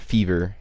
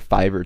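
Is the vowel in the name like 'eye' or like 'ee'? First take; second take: ee; eye. First: The first vowel sounds like 'ee'. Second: The first vowel sounds like 'eye'.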